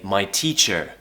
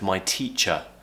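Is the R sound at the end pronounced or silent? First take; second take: pronounced; silent. First: The final R sound is clearly pronounced. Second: The final R sound is not pronounced. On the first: The speaker calls it wrong. "they might say" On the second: The speaker calls it right. "instead of my teacher"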